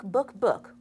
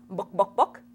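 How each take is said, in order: First: Said in the usual way. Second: Chicken voice. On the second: Shown as a demonstration. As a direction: cluck "Book, Book" like a hen, rising. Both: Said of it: "or should I say".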